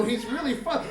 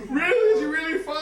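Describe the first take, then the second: First: Said in the usual way. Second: High, loud anxious squeal; frantic questioning. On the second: Retold or imitated. Wife questioning husband about baby, frantic. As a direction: squeal it back in mock desperate hope. Wife's frantic echo of reassurance.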